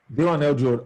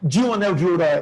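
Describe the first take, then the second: First: The first d is a plain d sound. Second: The first d sounds like dj. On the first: The speaker calls it right. "esse primeiro D, você fala com som de D mesmo" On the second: The speaker calls it wrong. "Você não fala com som desse igual aqui"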